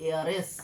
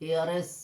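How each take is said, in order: Both takes have the same delivery.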